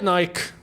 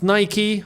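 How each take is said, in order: First: It is said the British way. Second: It is said the American way.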